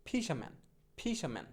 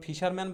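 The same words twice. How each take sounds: First: ফিশাম্যান as "fi-sha-man", no r; corrected pronunciation. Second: Said in the usual way. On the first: Shown as a demonstration. Teacher drilling fisherman with learners, r-less ফিশাম্যান. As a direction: drop the r in the middle of ফিশাম্যান. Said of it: "বলবো কি?". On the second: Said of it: "ফিশারম্যান বলবো না".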